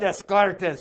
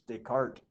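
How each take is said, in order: First: The name is pronounced letter by letter, as spelled. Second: The name is pronounced in its standard way. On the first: The speaker mispronounces the name. The speaker calls it wrong. "The reason I say Descartes is that's what his name looks like" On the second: The name's owner corrects the pronunciation. The speaker calls it right. "it's Descartes"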